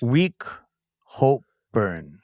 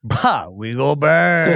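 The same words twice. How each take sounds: First: Halting single words, dropping low at the end; sounding out. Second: Slow, stretched-out holler on the last word; triumphant realization. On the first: Player reads the last card's odd words, halting. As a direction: read word by word, not yet understanding. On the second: Player gets the answer for his crew, triumphant. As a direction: draw it out as a rallying call. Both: Real, not acted.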